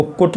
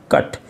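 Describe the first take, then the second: First: "कुट" with a short oo, rhyming with put; wrong vowel. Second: "कट" with a short uh, rhyming with but; correct vowel. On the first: Teacher contrasting wrong with right reading, mispronounced. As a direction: sound cut as "कुट", with oo. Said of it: "इसको कुट नहीं". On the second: Teacher contrasting right with wrong reading, correctly pronounced. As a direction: sound cut as "कट", with uh. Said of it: "इसको पढ़ेंगे आप". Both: Shown as a demonstration.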